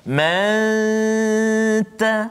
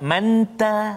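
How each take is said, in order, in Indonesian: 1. Huruf n tersembunyi dalam dengung sengau yang panjang. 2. Huruf n diucapkan dengan jelas tanpa dengung sengau. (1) "sembunyikan kesempurnaan huruf nun itu ke dalam huruf ta" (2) "jadi dia jadi seolah-olah macam izhar pula"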